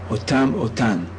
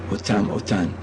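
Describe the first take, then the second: No difference in how they are said.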